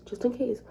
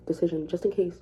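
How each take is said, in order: First: Higher, mocking repeat; raised mocking echo. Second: Said in the usual way. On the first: Shown as a demonstration. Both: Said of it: "just in case repeated".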